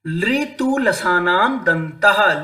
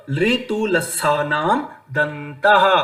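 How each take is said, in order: First: Slow chant of लृतु लसानाम दंतः; sutra recitation. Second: लृतु लसानाम दंतः drawn out slower; slow sutra recap. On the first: Teacher recites fourth sutra. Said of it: "आगे". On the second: Teacher repeats sutra as summary. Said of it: "तो लृ तु". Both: Shown as a demonstration.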